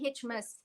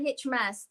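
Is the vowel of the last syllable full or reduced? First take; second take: reduced; full. First: The last syllable has a weak, reduced vowel. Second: The last syllable sounds like the word mass. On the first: It refers to a celebration like Christmas. The speaker calls it right. "you have to say Hitchmas" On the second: It sounds like a religious mass. The speaker calls it wrong. "hearing Hitchmas, M A S S"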